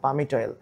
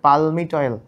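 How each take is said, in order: First: The L sound is left out of the word. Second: The L sound is pronounced in the word. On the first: The speaker calls it right. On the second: The speaker calls it wrong.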